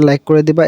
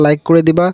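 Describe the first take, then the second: No difference in how they are said.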